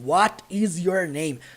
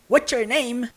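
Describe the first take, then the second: First: Each word is said separately, with full 'is'. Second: The words run together, with 'is' contracted. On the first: The speaker calls it wrong. "Ninguém fala assim" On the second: The speaker calls it right. "Do jeito que o burro falou"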